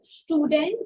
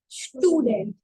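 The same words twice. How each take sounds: First: The word begins with a plain s sound. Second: The word begins with an sh sound. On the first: The speaker calls it wrong. "not student" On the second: The speaker calls it right. "but student. Sh and then t"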